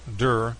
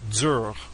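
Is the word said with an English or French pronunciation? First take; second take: English; French. First: It is said with an English-style pronunciation. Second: It is said with a French pronunciation. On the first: The speaker calls it wrong. "it's not pronounced dur" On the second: The speaker calls it right. "it's pronounced pronounced in French dur"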